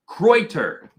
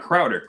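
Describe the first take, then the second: First: The first vowel sounds like 'oy'. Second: The first vowel sounds like 'ow'. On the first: The speaker calls it right. "Kreuter, not Crowder" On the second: The speaker calls it wrong. "not Crowder"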